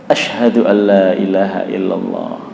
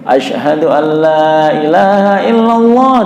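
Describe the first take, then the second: First: The phrase is said softly, not loud. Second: The phrase is said loudly and strongly. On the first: This is the quiet repetition before the loud version. "Itu tidak kencang" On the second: This is the full proclaimed version after the repetition. "setelah itu baru dikencengin"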